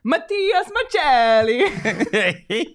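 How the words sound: It is said in an Italian accent.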